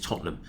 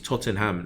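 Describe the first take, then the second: First: The middle syllable is reduced, nearly silent. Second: The middle syllable is pronounced fully and clearly. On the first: The speaker calls it right. "you don't pronounce the E N" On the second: The speaker calls it wrong. "she's trying to spell it out to me"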